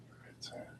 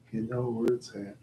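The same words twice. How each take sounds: First: Whispered repeat of the line. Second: Said in the usual way. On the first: Real, not acted. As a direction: drop to a whisper.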